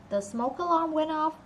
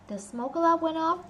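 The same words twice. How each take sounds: Both takes have the same delivery.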